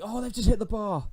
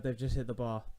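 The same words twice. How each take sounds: First: Real panicked yelp, much higher and louder; panicked cry. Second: Said in the usual way. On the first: Real, not acted. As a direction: shriek as the ball hits the bar. Rival hits the bar.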